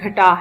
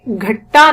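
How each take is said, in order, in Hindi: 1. बीच का व्यंजन एक है और छोटा है। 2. बीच का व्यंजन दोहरा है और लंबा खिंचता है। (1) "इसका सही तलफ्फुज घटा है" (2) "इसको हमने घट्टा नहीं पढ़ना"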